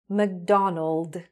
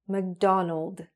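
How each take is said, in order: Both takes have the same delivery.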